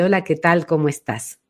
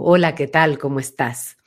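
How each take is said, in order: First: The voice is higher, soft, resonating forward. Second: The voice is deep, resonating far back.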